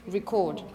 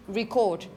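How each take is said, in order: First: The stress is on the second syllable. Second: The same.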